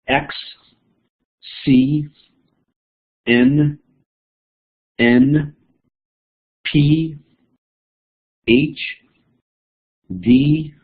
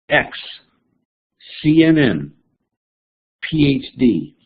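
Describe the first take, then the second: First: Each letter is said separately with pauses between. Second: The letters are grouped into short three-letter chunks. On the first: Each letter is a separate item to remember. "one letter at a time" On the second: The letters form a few familiar units. "Let me chunk it for you as I read it to you"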